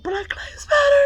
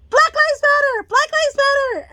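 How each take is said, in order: First: High tearful shout of the tic; crying shout. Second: High, loud involuntary shout; tic shout. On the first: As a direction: cry it out high through tears. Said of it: "that lady who fucking shouts out". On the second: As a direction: blurt it out at the top of the voice. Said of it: "it starts to fucking shout that shit out". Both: Retold or imitated.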